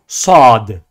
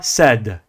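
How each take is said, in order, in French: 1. La lettre se dit lourde, avec emphase. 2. La lettre se dit légère, sans emphase. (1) "Nous disons également sad" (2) "et non pas sad"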